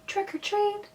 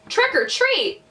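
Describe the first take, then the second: First: It is said very softly. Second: It is said a little louder.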